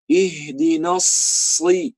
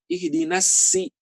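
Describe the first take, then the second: First: The s sound is heavy and thick. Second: The s sound is light and thin. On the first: The speaker calls it right. "Harusnya shad" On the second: The speaker calls it wrong. "kadang-kadang kebanyakan orang gini"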